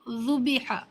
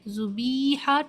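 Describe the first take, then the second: First: The middle vowel is said quick and short. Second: The middle vowel is drawn out long. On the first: The speaker calls it right. "जेर को जल्दी पढ़ें, थोड़ा भी ना खींचें" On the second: The speaker calls it wrong. "बी को आप बहुत खींच रही हैं"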